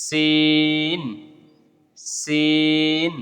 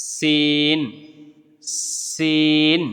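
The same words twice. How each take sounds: No difference in how they are said.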